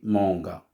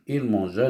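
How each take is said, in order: First: The g is hard, like in go. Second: The g is soft, like a zh sound. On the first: "si je ne mets pas le E, ça se dit manga" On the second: "je vais mettre E entre G et A"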